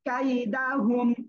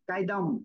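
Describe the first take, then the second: First: The word keeps the full 'hu' syllable. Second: The 'hu' syllable is dropped from the word. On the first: The speaker calls it right. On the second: The speaker calls it wrong.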